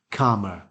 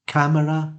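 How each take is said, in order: First: CALMER with a long ah as in arm; long back vowel. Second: CAMERA with the a of cat; short front vowel. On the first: Teacher repeating the contrast, long back vowel. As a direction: say CALMER as KAH-muh. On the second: Teacher repeating the contrast, short front vowel. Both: Shown as a demonstration. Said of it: "similar pronunciation, but of course, two different phonemes".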